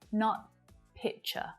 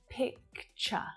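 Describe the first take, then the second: First: No 'k' sound comes before the 'ch'. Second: A clear 'k' sound comes before the 'ch'. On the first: The speaker calls it wrong. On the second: The speaker calls it right. "when this word is pronounced correctly, you will hear that k sound"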